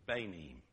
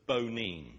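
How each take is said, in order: First: Banim opening on "bay", "bay-NEEM"; Hebrew word shown. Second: Bonim with a long O, "boh-NEEM"; Hebrew word shown. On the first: Preacher showing the Hebrew for children, banim as "bay-neem". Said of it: "I sort of just say it with this sort of English accent". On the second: Preacher showing the Hebrew for builders, bonim with long O. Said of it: "is something like bonim". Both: Shown as a demonstration.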